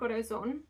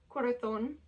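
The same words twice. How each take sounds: First: It is said in a non-Spain Spanish accent. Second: It is said in a Spain Spanish accent. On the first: The speaker calls it right. "I prefer saying corazon" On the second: The speaker calls it wrong. "I don't like saying corazon"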